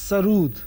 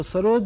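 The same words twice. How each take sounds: First: सरूद said with a long u, not o; Persian pronunciation. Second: Said in the usual way. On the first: Shown as a demonstration. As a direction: stress the Persian सरूद, saying it as sa-rood. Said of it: "असली pronunciation है". (सरूद को फ़ारसी उच्चारण में लंबे ऊ के साथ बोलना) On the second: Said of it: "इसका असली उच्चारण है".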